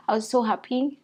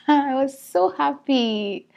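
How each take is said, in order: First: Said in the usual way. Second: Overjoyed. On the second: Real, not acted.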